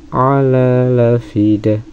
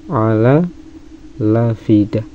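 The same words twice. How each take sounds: No difference in how they are said.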